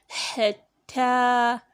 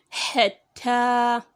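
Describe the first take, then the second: The two takes are said the same way.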